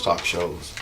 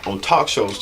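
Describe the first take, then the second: First: Softer mock British talk shows; quiet British vowels on shows; British accent. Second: Said in the usual way. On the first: Shown as a demonstration. British voice demo for viewers. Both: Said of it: "That's my British voice".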